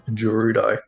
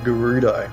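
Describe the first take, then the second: First: It begins with a soft G sound. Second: It begins with a hard G sound.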